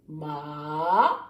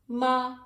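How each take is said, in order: First: It is said with the third tone. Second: It is said with the first tone. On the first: "The third tone is ma. Right? You go down and up" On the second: "The first tone is ma"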